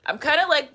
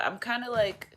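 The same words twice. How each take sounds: First: Put-on higher and louder, like kids who won't settle down; restless kid energy. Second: Said in the usual way. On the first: Shown as a demonstration. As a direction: bounce the words like a jittery schoolkid. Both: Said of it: "that's what I'm doing right now".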